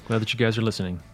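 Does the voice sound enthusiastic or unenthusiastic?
unenthusiastic. It is said flatly, without enthusiasm. The speaker calls it wrong.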